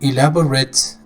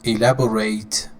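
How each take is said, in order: First: The last syllable is a reduced 'ret'. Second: The last syllable is a full 'rate'. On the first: It is used as an adjective. "elaborate is an adjective, ... ret, adjective" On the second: It is used as a verb. "elaborate is the verb. ... rate, verb"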